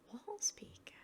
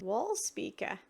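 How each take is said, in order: First: Puzzled whisper. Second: Said in the usual way. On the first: Real, not acted. Repeats item name, puzzled.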